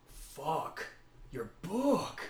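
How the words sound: There is a pause after fuck.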